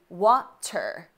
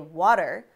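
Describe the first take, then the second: First: The middle t is a crisp T sound. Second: The middle t sounds like a quick D. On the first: "as opposed to water" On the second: "way less energy ... to say water"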